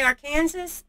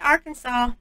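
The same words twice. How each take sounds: First: The ending sounds like the word Kansas. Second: The ending sounds like the word saw. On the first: The speaker calls it wrong. "it looks like Kansas. So if you go in there and say Arkansas, mm, I guess you're in trouble" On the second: The speaker calls it right. "You better say Arkansas, even though there's no W in there"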